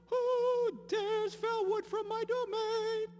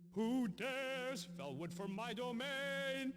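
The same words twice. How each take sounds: First: The word dares is not especially stressed. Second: The word dares is strongly stressed.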